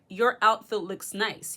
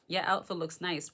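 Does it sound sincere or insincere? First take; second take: sincere; insincere. First: It sounds sincere and plainly positive. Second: It sounds insincere and doubtful, like an envious remark.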